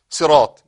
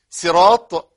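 First: «صراط» loud, starting on a heavy emphatic s; proper sad. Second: «صراط» loud, starting on a light s; sin for sad. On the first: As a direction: give «صراط» its dark ص. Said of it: "بالصاد أو بالسين". («صراط» بالصاد المفخمة) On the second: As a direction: read «صراط» with thin س for ص. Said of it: "يقرأها بالسين". («صراط» بالسين) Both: Shown as a demonstration.

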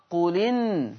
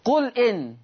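First: "قل إن" run together as qulin; qu-linn for "قل إن", no glottal stop; hamza vowel transferred. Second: Said in the usual way. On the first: Shown as a demonstration. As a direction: drop the hamza of "قل إن", giving lam an "i". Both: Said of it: "بالنقل في الألفاظ الآتية".

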